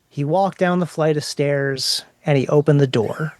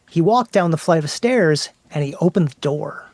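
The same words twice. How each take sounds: First: It is read flatly, without suspense. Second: It is read with building suspense and emotion.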